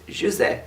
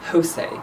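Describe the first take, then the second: First: The name is said the Portuguese way. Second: The name is said the Spanish way. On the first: The speaker calls it right. "In Portugal, you pronounce the J" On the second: The speaker calls it wrong. "I've seen people pronouncing it Jose. That's a Spanish thing"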